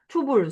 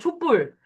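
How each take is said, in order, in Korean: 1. 둘째 음절은 예사소리 자음으로 시작해요. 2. 둘째 음절은 된소리 자음으로 시작해요. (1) "북한 발음이 초불인지는 모르고 아마 그렇겠지?" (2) "이 뒤가 뿔로 납니다. 된 소리로 납니다"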